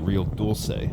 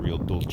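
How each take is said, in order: First: The c in Dulce sounds like s. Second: The c in Dulce sounds like ch. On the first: The speaker calls it right. "It's actually" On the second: The speaker calls it wrong. "not ... I don't know if Dulce is maybe Italian"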